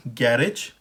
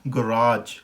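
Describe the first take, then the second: First: गैरेज as GAR-ij, stressed on the first syllable; British pronunciation. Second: गैराज as guh-RAAJ, long second syllable; American pronunciation. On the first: Teacher contrasts British and American garage, British pronunciation. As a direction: say गैरेज the British way, short ending. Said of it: "British में हो गया". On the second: Teacher contrasts British and American garage, American pronunciation. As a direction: say गैराज with weak first syllable, drawn RAAJ. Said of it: "American में हो गया". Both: Shown as a demonstration.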